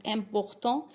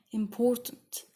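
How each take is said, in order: First: "Important" with a French nasal ending. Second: "important" in plain English. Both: Shown as a demonstration. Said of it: "So it's really similar in the sound".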